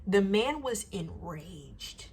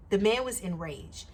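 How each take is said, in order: First: "The man was enraged" drawn out slowly, each word weighed; slow emphasis. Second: Said in the usual way. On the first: Real, not acted. Telling viewers how angry the customer was, slow and stressed. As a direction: let "enraged" land heavy and slow.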